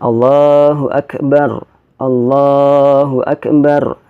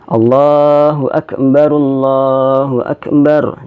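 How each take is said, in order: First: The phrases are separated, first akbar ending in r. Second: The phrases are joined, first akbar ending in ru. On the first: "bacaan takbir ini boleh dibaca terpisah" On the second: "Dibaca nyambung ya"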